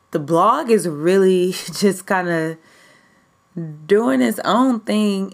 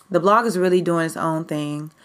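First: Laughing through the words, slower; chuckling with excitement; giddy laugh. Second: Said in the usual way. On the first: Real, not acted. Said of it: "I'm, like, super excited. I'm all, like, giddy". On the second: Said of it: "I'm, like, super excited".

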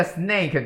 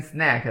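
First: Snake with a long "ay" vowel; minimal pair. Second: Snack with an open short "a" vowel; minimal pair. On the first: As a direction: say snake to contrast with snack. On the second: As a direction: say snack to contrast with snake. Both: Shown as a demonstration. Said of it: "就有点像那个".

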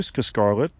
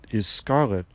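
First: "Scarlet" with a stuttered first sound; stammered name. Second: Said in the usual way. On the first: A narrator's reading. Tree man greeting the girl, stuttering "Scarlet". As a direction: stumble on the Sc of "Scarlet". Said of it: "Sylvanus repeated". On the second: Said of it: "Her name," Lucas said".

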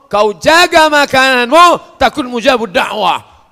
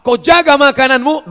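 First: High, loud, slow exhortation; preaching shout. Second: High, loud preacher's call; preaching shout. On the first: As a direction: urge them hard to guard their food. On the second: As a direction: cry it out from the pulpit. Preaching exhortation. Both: Acted.

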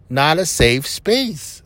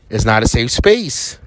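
First: "Not a safe space" slow, each word weighted; emphatic repeat. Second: Said in the usual way. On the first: Real, not acted. Podcaster warning listeners, slow emphatic repeat. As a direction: spell it out slowly for emphasis.

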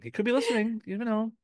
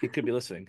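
First: Much higher, playful squeak; high-pitched playful voice. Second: Said in the usual way. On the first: Pretend. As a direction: repeat it in a silly high voice.

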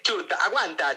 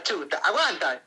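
First: Said in the usual way. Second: Drawn out slowly. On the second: Shown as a demonstration. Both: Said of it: "Chuta, oye".

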